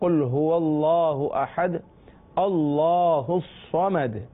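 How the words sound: There is a stop after ahad before Allahu. "جب وقف کر لیں گے تو"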